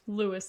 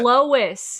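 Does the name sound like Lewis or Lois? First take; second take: Lewis; Lois. First: The name sounds like Lewis. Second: The name sounds like Lois. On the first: The speaker calls it wrong. "That kills me that you said it like that" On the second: The speaker calls it right. "Her name's Lois"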